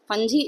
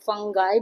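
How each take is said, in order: First: The middle consonant is a j, ending in 'ee'. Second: The middle consonant is a hard g, ending in 'eye'. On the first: The speaker calls it wrong. "फंजी is a wrong pronunciation of course" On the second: The speaker calls it right. "इसका pronunciation फंगाई भी होता है"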